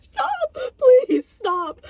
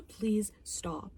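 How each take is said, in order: First: Very high, loud screamed plea; exasperated pleading shout. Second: Softer plea after an outburst; subdued weary plea. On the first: Reviewer begging the movie to stop, exasperated scream. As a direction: scream for it to end. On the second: Reviewer begging the movie to stop, subdued plea. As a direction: drop the volume and beg quietly. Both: Real, not acted.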